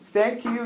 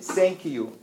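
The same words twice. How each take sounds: First: The word begins with a 'th' sound. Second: The word begins with an 's' sound. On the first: "instead of saying thank you" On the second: "you guys pronounce that and sa the same"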